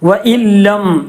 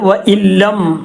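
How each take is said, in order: Both takes have the same delivery.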